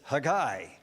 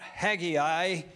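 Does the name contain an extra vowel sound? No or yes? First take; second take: no; yes. First: The name is said without the extra vowel. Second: The name is said with an extra vowel sound. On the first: The speaker calls it right. "it's Haggai" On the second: The speaker calls it wrong. "it's not Haggai"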